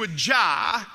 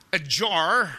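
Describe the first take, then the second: First: Said in the usual way. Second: "jar" in an American accent, with a hard final r. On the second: Shown as a demonstration. Australian preacher repeating it for Americans, American accent. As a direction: say "jar" like an American, lower and drawn on the r.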